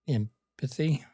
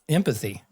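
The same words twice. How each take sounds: First: The voice rises at the end, like a question. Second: The voice falls at the end, like a statement. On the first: It is asked as a question. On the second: It is stated as an answer, not asked.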